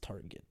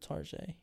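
First: The name is given its ordinary everyday pronunciation. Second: The name is given a fancy, French-like pronunciation. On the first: The everyday name is given for ordinary people. "If you're poor and you don't know what that is" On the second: The speaker pretends to be upper class. "But I just said fancy"

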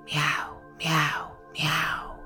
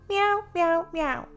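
First: It is said in a gravelly, evil voice. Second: It is said in a normal toy-like voice.

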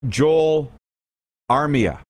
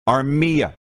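First: The stress is on the first syllable. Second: The stress is on the middle syllable. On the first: The speaker calls it wrong. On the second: The speaker calls it right. "Middle syllable"

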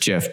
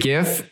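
First: It starts with a j sound. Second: It starts with a hard g sound. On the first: This is the supposedly correct form. "I'm pretty sure it's GIF" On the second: This is the speaker's own habit. "I say GIF"

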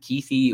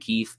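First: The surname ends with an extra vowel sound. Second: The surname ends without any final vowel sound. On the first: Many people say it this way. "or however you want to say it" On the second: This is the speaker's own way of saying it. "I say Brant Keith"

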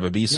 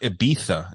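First: The z is pronounced like English s. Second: The z is pronounced like English th. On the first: This is the style without the lisp. "instead of Ibiza" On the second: This is the lisped European style. "they'd say like Ibiza"

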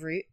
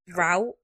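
First: The word is pronounced the British way. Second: The word is pronounced the American way. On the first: This is the usual local way to say it. "Instead of route" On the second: This is how the other person says it. "he says like route"

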